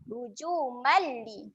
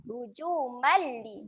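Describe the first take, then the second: First: The m merges straight into a short l. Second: The same.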